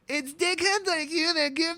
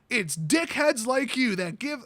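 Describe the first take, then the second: First: It is read in a put-on imitating voice. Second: It is read in the speaker's normal voice.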